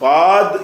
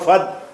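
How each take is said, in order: First: The vowel is drawn out long. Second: The vowel is cut short. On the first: The speaker calls it wrong. "ஃபாத்ன்னு சொல்லாம" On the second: The speaker calls it right. "சொல்லாம ஃபத்"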